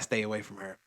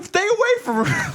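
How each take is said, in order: First: Said in the usual way. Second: Very high, loud fake wail; hammed-up tearful plea; mock crying. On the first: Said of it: "Um, so that". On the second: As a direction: beg in an exaggerated crying squeal. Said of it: "like, crying in the classroom".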